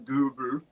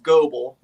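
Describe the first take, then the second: First: The name is pronounced with German vowel sounds. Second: The name is pronounced with plain English sounds. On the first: "I love saying it with the German pronunciation" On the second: "I guess it's just Goebel, like George Goebel"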